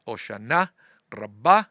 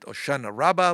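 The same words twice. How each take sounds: First: It is said with Israeli Sephardic pronunciation. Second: It is said the way locals say it. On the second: "Here they call it"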